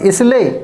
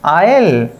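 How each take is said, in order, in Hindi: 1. s उच्चारित होता है। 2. s मौन है। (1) "आप पढ़ेंगे अगर रंग" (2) "अब हमें कैसे प्रोनाउंस करना है"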